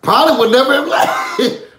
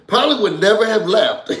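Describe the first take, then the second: First: Said in the usual way. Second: Laughing through the line. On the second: Real, not acted. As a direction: repeat it while laughing.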